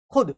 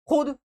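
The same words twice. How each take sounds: First: खुद with a short u, "khud"; short vowel. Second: खुद with a long oo, "khood"; high-pitched खुद, said "khood"; wrong long vowel. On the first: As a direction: keep खुद brief, no long oo. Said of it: "खुद पढ़ते हैं". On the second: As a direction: stretch the u of खुद as a wrong example. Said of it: "खुद नहीं". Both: Shown as a demonstration.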